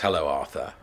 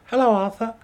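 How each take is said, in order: First: It is said in a normal pitched voice. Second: It is said in a very high voice.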